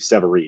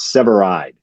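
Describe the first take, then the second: First: The last syllable does not sound like 'eye'. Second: The last syllable sounds like 'eye' plus d. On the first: The speaker calls it wrong. "people that read it always do Severeid" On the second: The speaker calls it right. "It's Severide"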